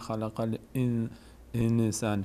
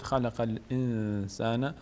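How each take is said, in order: First: The n carries a vowel and breaks off. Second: The n is hidden and sounded through the nose. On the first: The speaker calls it wrong. "مال شما" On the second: The speaker calls it right. "نون اینجا اخفا میشه، از بینی ادا میشه"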